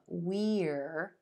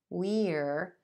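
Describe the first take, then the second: First: The word has a full, clear vowel. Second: The same.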